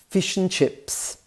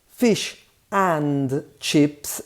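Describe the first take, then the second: First: The word 'and' is reduced to 'n'. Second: The word 'and' is said in full.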